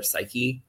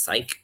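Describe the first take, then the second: First: Psyche said "SY-kee"; two-syllable pronunciation. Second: Psyche said as one syllable, like "sike"; one-syllable pronunciation. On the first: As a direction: say Psyche with a long ee on the end. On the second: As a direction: say Psyche with a silent final e, rhyming with bike. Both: Shown as a demonstration. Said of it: "I don't know if it's Psyche or Psyche".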